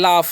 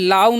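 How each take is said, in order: First: The word ends with an f sound. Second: The word ends with a v sound. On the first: The speaker calls it right. "इसे पढ़ते हैं लाफ" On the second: The speaker calls it wrong. "लाव नहीं पढ़ना है"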